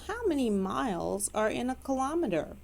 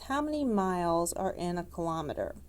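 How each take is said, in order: First: It is said in a put-on British accent. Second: It is said in the speaker's normal accent.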